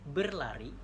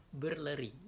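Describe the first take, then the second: First: BERLARI punched louder, E only in "ber"; firm, clear "berlari", open A after the L; correct articulation. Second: BERLERI with E in both first syllables; misarticulated "berleri" instead of berlari; wrong vowel. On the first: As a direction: say "berlari" loudly with a clear A in "lari". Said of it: "E-nya cuma satu di ber". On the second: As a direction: say "berleri", swapping the A for an E. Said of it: "bukan berleri". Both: Shown as a demonstration.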